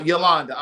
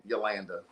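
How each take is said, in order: First: Yolanda with an open "ah" in the middle; criticised pronunciation. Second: Yolanda with a flat A as in "land"; low, soft Yolanda, said yo-LAN-duh; corrected pronunciation. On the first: Host addressing a viewer by name, Yolanda with an "ah" vowel. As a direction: say Yolanda as yo-LAHN-duh. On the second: Host correcting himself for the viewer, Yolanda with the "land" vowel. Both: Shown as a demonstration.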